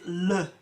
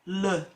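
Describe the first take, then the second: First: The syllable has a reduced 'uh' vowel. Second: The syllable has a reduced 'uh' vowel.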